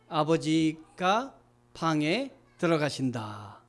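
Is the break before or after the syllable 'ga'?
after. The break comes after 'abeojiga', before 'bange'. Father goes into the room. The speaker calls it right. "아버지가 방에 들어가셔야 되는데"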